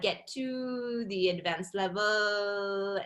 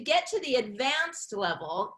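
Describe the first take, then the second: First: The endings of the words are held out longer. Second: The middles of the words are held out longer. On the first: "for French speakers is you're you're kind of holding out some of these words" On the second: "in American English, what we do, instead of the ending of the word, we tend to hold the middle of the words"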